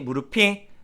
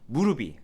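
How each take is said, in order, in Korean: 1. 연음되는 자음은 거센소리로 그대로 남습니다. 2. 연음되는 자음은 예사소리로 바뀝니다. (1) "다시" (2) "틀린 발음이고요"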